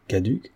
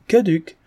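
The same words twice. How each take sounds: First: Softly rising query; quiet, uncertain repeat; puzzled question. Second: High, falling, punched reply; firm final verdict on one word; emphatic confirmation. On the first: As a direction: echo it as a question. Listener queries the legal term. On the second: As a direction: pronounce it with relish. Notary confirms the term emphatically. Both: A narrator's reading.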